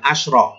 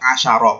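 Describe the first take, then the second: First: No vowel sound comes between sh and r. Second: A vowel sound comes between sh and r. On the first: The speaker calls it wrong. "bukan asyro" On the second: The speaker calls it right. "yang tidak bertak marbutoh dibaca asyaro"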